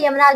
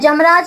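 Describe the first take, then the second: First: The word begins with a y sound. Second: The word begins with a j sound. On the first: The speaker calls it right. "यमराज होता है" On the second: The speaker calls it wrong. "जमराज नहीं होता"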